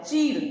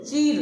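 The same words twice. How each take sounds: First: चीर said fast, without lengthening the ई; quick short i. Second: चीर with the ई stretched long and stressed. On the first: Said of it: "जल्दी बोलते हैं". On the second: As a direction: hold the ई in चीर. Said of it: "चीर दीर्घ ई की मात्रा है". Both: Shown as a demonstration.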